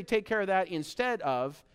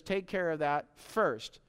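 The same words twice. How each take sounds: First: Said in the usual way. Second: Slow, weighty "Take care of that first" with a leaning stress on "first"; preacher correcting the misreading, slowly landing "first". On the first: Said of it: "It doesn't say". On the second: Shown as a demonstration. Steady, slow weight on "first". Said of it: "He says".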